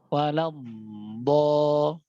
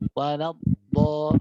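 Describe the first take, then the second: First: The final consonant flows on with continuous friction. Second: The final consonant is cut off without flowing. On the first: The speaker calls it right. "Yang yang benar adalah mengalir" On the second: The speaker calls it wrong. "ana contohkan yang salah ya ... Tidak ngalir"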